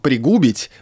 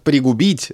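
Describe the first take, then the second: First: The stress is on the second syllable. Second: The stress is on the first syllable. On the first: The speaker calls it right. "я вижу там «пригубить»" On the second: The speaker calls it wrong. "вариант «пригубить» стоит с запретительной пометой «не»"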